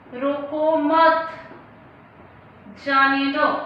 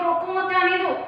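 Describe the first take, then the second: First: It is said with a pause inside it. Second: It is said in one breath without pausing. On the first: The meaning becomes clear. The speaker calls it right. "हम यहाँ पर अल्प विराम का प्रयोग करेंगे" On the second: The meaning is unclear. The speaker calls it wrong. "मैं इस वाक्य को एक ही सांस में बोलती हूँ"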